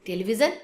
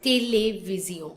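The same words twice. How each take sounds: First: TELEVISION as "te-li-vi-zhn", rising; English pronunciation. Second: TELEVISION as "tay-lay-vee-zyo", nasal ending; French pronunciation. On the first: Teacher contrasting with French, English pronunciation. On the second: Teacher showing how French speakers pronounce it, French pronunciation. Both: Shown as a demonstration. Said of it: "we pronounce".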